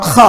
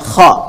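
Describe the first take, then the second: First: The kh is a rough, snore-like rasp. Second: The kh is made deep inside the throat. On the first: The speaker calls it wrong. "Bukan kayak ngorok kha ya, tidak" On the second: The speaker calls it right. "Tapi dari dalam"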